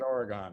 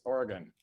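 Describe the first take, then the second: First: The final syllable does not rhyme with 'gun'. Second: The final syllable rhymes with 'gun'. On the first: The speaker calls it wrong. "not Oregon" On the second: The speaker calls it right. "get your gun and come to Oregon"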